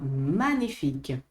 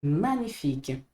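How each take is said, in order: No difference in how they are said.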